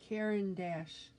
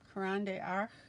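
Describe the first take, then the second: First: The name ends with an 'ash' sound. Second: The name ends with an 'arsh' sound. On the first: The speaker calls it right. "thank you, Sandra" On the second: The speaker calls it wrong. "Mispronounced, of course"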